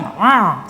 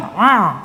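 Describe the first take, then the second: First: The sound resonates through the nose. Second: The sound resonates through the nose.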